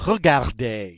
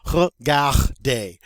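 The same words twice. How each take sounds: First: "Regarder" joined up at normal pace; louder whole-word model of "Regarder"; throaty R sounds. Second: "Regarder" slowly, in separate syllables; throaty R sounds. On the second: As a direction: break up "Regarder" loudly, ruh-gar-DAY. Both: Shown as a demonstration. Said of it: "Got a lot of R sounds".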